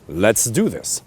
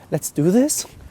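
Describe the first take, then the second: First: It is a firm statement falling at the end. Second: It is a hesitant question rising at the end.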